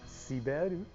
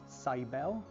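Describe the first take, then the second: First: The name ends in an R and vowel. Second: The name ends in a clear L sound. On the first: "when you translate to the Japanese pronunciation, it goes towards Siberu. So the L will go with R" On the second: "the way they're trying to go is towards Saibel"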